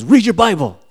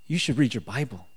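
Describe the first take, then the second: First: Loud, high-pitched retold order; acted-out emphatic insistence; insistent command. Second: Said in the usual way. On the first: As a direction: order it forcefully, voice raised. Inner voice insists, louder second time.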